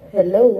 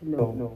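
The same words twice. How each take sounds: First: The voice sounds natural with no effect. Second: The voice is changed by an uncle effect. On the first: "balik na siya dun sa normal voice" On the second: "Uncle sound effect"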